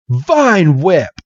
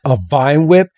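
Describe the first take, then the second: First: Higher, falling battle cry; attack call. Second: VINE WHIP rising into a question; scoffing question with a rise on WHIP; incredulous echo. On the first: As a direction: call out the move like a command. Trainer calls out an attack. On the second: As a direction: echo "Vine Whip" in disbelief, voice lifting at the end. Opponent scoffs at the named attack. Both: Acted.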